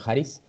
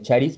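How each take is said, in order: First: The word starts with a breathy h-like sound. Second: The word starts with a hard k sound. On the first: The speaker calls it right. "Pero debe ser haris" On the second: The speaker calls it wrong. "la pronunciación en inglés así es"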